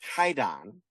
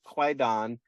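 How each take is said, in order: First: No w sound follows the first consonant. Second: A w sound follows the first consonant. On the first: This is the original word. The speaker calls it right. "really it's Kaidan" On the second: This is the name the title is known by. The speaker calls it wrong. "It is called Kwaidan"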